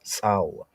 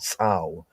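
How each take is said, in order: First: The word ends with a w sound. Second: The same.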